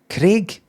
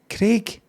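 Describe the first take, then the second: The two takes are said the same way.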